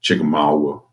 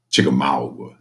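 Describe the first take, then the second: First: Southern accent. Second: Chickamauga drawled low and Southern; southern accent. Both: Shown as a demonstration. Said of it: "you have to say with a southern accent".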